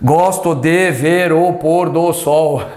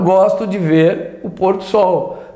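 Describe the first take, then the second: First: The word 'do' is said separately and fully. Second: The word 'do' blends into the following 'sol'. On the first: The speaker calls it wrong. "Ninguém fala dessa forma" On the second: The speaker calls it right. "ele se funde do sol"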